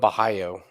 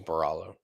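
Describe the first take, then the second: First: The name is said with a non-American pronunciation. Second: The name is said with an American pronunciation. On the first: This is how the broadcast says the name. "they're calling him Bahayo" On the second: This is the speaker's own anglicized version. "my dumbass American pronunciation is Baralo"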